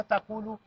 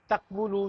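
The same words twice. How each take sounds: First: तकूलू with no "व" and a long "ऊ", said as ta-koo-loo; easy simplified form. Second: तकवुलू with the full "व", said as tak-wu-lu; original hard form. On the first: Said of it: "देखें किस कदर सहूलत होगी". (तकूलू को बिना "व" के, लंबे "ऊ" के साथ, त-कू-लू बोलें) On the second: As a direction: spell out तकवुलू as tak-wu-lu, sounding the "व". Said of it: "अब इसका भी देखिए कितना मुश्किल हो जाता". (तकवुलू को "व" के साथ तक-वु-लू बोलें) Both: Shown as a demonstration.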